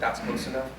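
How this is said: It sounds like a soft, polite request. The speaker is asking for space. "can I ask you"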